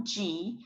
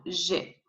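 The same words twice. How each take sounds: First: G said "jee"; English G with a j sound and long ee; English letter G. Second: G said "zhay"; French G, soft zh plus "ay"; French letter G. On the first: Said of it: "We don't have G". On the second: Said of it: "we have G". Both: Shown as a demonstration.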